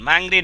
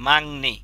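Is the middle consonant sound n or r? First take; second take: r; n. First: The middle consonant is pronounced as r. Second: The middle consonant is pronounced as n. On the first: The speaker calls it wrong. "মনে রাখবেন, মাংরি না" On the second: The speaker calls it right. "কি হবে? মাংনি।"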